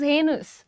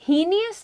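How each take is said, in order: First: The word starts with a 'hay' sound. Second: The word starts with a 'hee' sound. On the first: The speaker calls it right. "The pronunciation is हेनस" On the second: The speaker calls it wrong. "हीनियस नहीं है"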